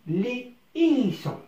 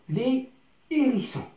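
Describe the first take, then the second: The two takes are said the same way.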